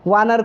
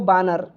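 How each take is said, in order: First: The word begins with a v sound. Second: The word begins with a b sound. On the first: This is the standard Hindi form. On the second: This is the Awadhi dialect form.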